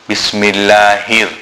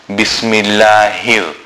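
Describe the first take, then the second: Both takes have the same delivery.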